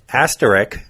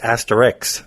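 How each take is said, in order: First: The word ends with an 'isk' sound. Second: The word ends with an 'iks' sound. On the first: The speaker calls it right. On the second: The speaker calls it wrong.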